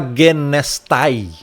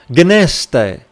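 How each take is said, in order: First: The word ends in an 'ai' sound. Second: The word ends in a plain 'e' sound. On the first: The speaker calls it wrong. "você não vai falar gnestai" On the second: The speaker calls it right. "aqui é um ditongo"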